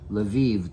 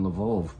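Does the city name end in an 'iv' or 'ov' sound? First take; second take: iv; ov. First: The name ends with an 'iv' sound. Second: The name ends with an 'ov' sound. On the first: "they say" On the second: "I'm guessing Lvov must be the the, uh, the Ukrainian pronunciation of it"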